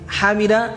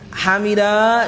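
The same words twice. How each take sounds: First: The final vowel is short. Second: The final vowel is long. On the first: One person praised him. "satu orang" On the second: Two people praised him. "dua orang"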